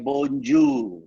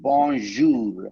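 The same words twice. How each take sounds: First: The middle consonant is a hard j sound. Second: The middle consonant is a soft zh sound. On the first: The speaker calls it wrong. "never say bonjour. ஜெய வரக்கூடாது" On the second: The speaker calls it right. "you have to pronounce it the right way"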